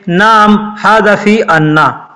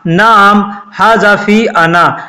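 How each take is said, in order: First: The last word has a doubled, held n. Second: The last word has a short single n.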